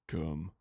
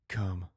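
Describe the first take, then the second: First: It is said in a noticeably deeper voice. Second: It is said in the speaker's normal voice. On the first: The speaker calls it right. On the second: The speaker calls it wrong.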